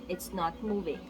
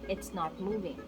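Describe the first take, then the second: No difference in how they are said.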